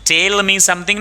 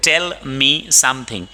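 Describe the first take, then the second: First: "tell" raised and stretched like "tale"; wrong long vowel. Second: Slow, with short e in "tell". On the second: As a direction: keep "tell" brief, spacing the words. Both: Shown as a demonstration. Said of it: "नहीं बोलते".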